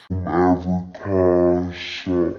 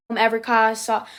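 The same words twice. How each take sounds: First: Slowed-down playback, very low and dragged; slow-motion effect; slow-motion replay. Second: Said in the usual way. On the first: Shown as a demonstration. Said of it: "and then slow motion". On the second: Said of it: "do it in normal speed".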